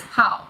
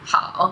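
First: Hao is said with the fourth tone. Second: Hao is said with the third tone. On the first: It is part of the word meaning hobby. "it's hao, fourth tone" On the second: It is part of the greeting meaning hello. "both are third tones"

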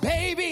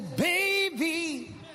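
First: It is said in a plain, ordinary voice. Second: It is said in a dramatic preaching voice. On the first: "I said" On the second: "I didn't say it in my preacher voice"

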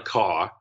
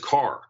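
First: The final R sound is dropped. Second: The final R sound is clearly pronounced. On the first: The speaker calls it wrong. "It's not a car" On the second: The speaker calls it right. "you have to be able to pronounce your R's"

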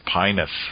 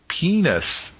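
First: The first vowel sounds like 'eye'. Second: The first vowel sounds like 'ee'. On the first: The speaker calls it right. "It's probably pronounced pinus" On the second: The speaker calls it wrong. "you could possibly pronounce this a slightly different way, like penis"

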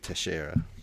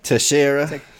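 First: The name is said with Portuguese pronunciation. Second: The name is said with English pronunciation. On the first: "probably the Spanish or Portuguese way would be Teixeira" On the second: "It's just the English way to say it"

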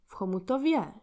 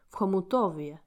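First: The stress is on the fourth syllable. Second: The stress is on the third syllable.

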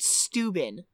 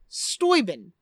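First: The name is said with an English pronunciation. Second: The name is said with a German pronunciation. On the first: The speaker calls it wrong. "It's not Steuben. You wouldn't pronounce it that way" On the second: The speaker calls it right. "it's pronounced Steuben. Because he's German"

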